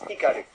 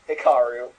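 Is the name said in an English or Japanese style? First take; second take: Japanese; English. First: The name is said in a Japanese style. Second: The name is said in an English style. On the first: "Minmay says Hikaru" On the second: "everyone who speaks English says Hikaru"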